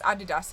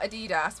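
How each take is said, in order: First: It is said the British way. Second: It is said the non-British way. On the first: "in the U K we pronounce it differently" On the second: "it's not Adidas"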